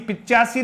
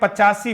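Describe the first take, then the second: First: The first syllable has an i vowel. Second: The first syllable has an a vowel. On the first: The speaker calls it wrong. "पिचासी नहीं" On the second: The speaker calls it right. "फिर देखें पचासी"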